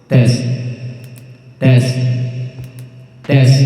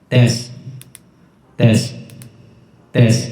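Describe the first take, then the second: Both takes have the same delivery.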